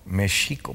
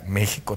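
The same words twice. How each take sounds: First: It is pronounced the way Nahuatl would say it. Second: It is pronounced the ordinary Spanish way.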